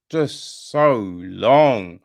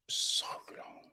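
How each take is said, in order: First: Drawn-out exasperation. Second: A hushed, weary "so long"; whispered aside. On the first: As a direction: stretch "just so long" very slowly and louder. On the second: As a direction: whisper "so long" softly, almost breathless. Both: Shown as a demonstration. Repeats "so long" for effect.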